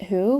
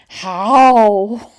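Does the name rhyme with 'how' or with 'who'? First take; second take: who; how. First: The name is said with an 'oo' vowel. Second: The name is said with an 'ow' vowel. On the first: The speaker calls it wrong. "my um, original assumption of how to pronounce that" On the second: The speaker calls it right. "I think it might be How"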